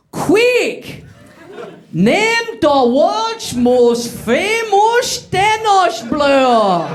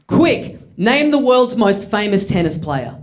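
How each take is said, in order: First: High, slow, over-the-top fake Dutch accent; a bad Dutch accent stretched out slow. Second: Said in the usual way. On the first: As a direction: ham up a made-up Dutch accent. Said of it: "the intensity of the Dutch accent". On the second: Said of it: "The first line of dialogue that I had to deliver".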